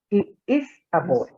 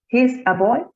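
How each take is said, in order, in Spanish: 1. El pronombre y el verbo se dicen como palabras separadas. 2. El pronombre y el verbo se unen en una sola sílaba. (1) "como si fuera eh, no contraída la forma" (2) "pronunciarlo como si estuviera contraído"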